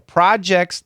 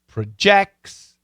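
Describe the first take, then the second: First: It has the noun pronunciation. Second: It has the verb pronunciation. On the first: It names things someone works on. "that's a noun" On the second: It describes giving off a quality. "Projects is the verb"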